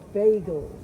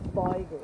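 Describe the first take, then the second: First: It is said in a northern Eastern European Yiddish accent. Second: It is said in a Polish Yiddish accent. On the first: The speaker comes from the north of Eastern Europe. "came from the north of the of Eastern Europe" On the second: The speaker comes from Poland. "were the Polak, you'd say"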